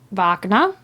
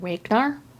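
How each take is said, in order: First: The name is said without an American accent. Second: The name is said with an American accent.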